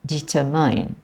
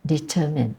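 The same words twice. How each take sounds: First: Determine ending like mine; determine said as de-ter-MINE; determine with the end rhyming mine; wrong determine. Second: Determine ending in min, soft; determine said as de-TER-min; correct determine. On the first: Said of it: "I have heard people say". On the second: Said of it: "rather than". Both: Shown as a demonstration.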